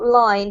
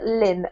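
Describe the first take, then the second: First: The syllable has a long 'eye' vowel. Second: The syllable has a short 'ih' vowel. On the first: The speaker calls it wrong. "not line" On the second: The speaker calls it right. "but lin"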